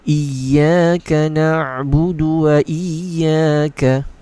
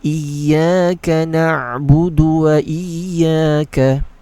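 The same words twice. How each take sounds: No difference in how they are said.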